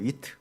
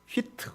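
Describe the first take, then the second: First: It starts with a plain w, English style. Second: It starts with a breathy h, Korean style. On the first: "영어식 발음은 위트예요" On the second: "우리 조선식 발음 휘트지만"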